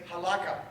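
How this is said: It is said the Ashkenazi way.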